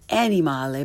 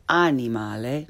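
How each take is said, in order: First: "animale" starting like English animal; learner's mispronunciation. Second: "animale" with open ah, rising end; correct Italian pronunciation. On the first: Teacher shows beginners' mistake, "animale" with English short a. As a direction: say "animale" with first a as in cat. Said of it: "first the way most people". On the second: Teacher corrects beginners, "animale" with Italian ah. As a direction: say "animale" as ah-nee-MAH-leh. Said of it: "follow it with the correct pronunciation". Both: Shown as a demonstration.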